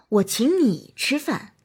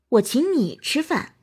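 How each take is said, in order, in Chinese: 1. 重音在「你」上。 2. 重音在「你」上。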